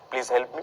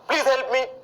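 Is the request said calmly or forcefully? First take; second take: calmly; forcefully. First: It is said in a calm, ordinary way. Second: It is said in a forceful, exclamatory way. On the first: It is a normal polite request. The speaker calls it right. "सामान्य तरीके से" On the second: It sounds demanding, so no one would help. The speaker calls it wrong. "कभी नहीं बोलते ऐसे"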